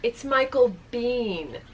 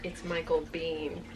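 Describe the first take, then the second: First: Slow, deliberate "Michael Biehn"; drawn-out reveal. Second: Low, soft, slow "Michael Biehn"; hushed repeat. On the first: Actor corrects the fan in front, deliberate "Michael Biehn". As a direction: land "Michael Biehn" slowly as the big reveal. Reveals who turned around, first take. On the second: Teller repeats what actor said to her, hushed "Michael Biehn". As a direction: sink the voice for "Michael Biehn", slowly. Repeats reveal, mortified, second take. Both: Retold or imitated.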